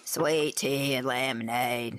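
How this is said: It is spoken in a put-on southern drawl.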